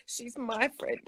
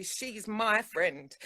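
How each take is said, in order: First: Said in the usual way. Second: Slow, soft "She's my friend," leaning hard on "my"; possessive stress on my. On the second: Shown as a demonstration. Telling her friend how she introduces her, stressing "my". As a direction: say "my" long and pointed, she belongs to me. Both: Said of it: "when I share things and I say".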